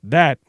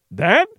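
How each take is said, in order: First: That said lower, ruefully; rueful reply. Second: That rising in horrified disbelief; horrified query. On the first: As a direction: answer with a rueful shrug in the voice. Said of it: "looking ruefully". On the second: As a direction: ask it appalled. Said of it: "queried in accent of horror". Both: Acted.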